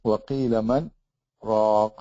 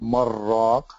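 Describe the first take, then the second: First: A short breathless stop comes before 'raq'. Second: The noon merges into the ra without stopping. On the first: The speaker calls it right. "take a pause without, without uh, taking a breath" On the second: The speaker calls it wrong. "you cannot pronounce it marraq"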